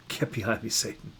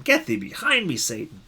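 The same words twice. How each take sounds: First: Softer, settled and unhurried; gentle but resolute; quiet firm rebuke. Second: Much higher, big dramatic outburst on Get; thundering pulpit rebuke; dramatic reading. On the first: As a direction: dismiss it calmly, no shouting. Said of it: "doesn't have to be about yelling". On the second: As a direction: declaim it like a stage rebuke. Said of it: "we may read it dramatically". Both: Shown as a demonstration.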